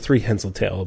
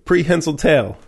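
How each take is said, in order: First: The first word begins with a 'thr' sound. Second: The first word begins with a 'pr' sound. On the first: The speaker calls it wrong. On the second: The speaker calls it right.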